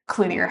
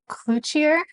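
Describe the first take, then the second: First: The name is said in a general American way. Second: The name is said in the local Louisiana way. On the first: "I'm going to refer to as Cloutier House" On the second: "down in Louisiana they actually pronounce it Cloutier"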